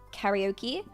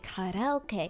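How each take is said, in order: First: It is said with an English accent. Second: It is said with a Japanese accent.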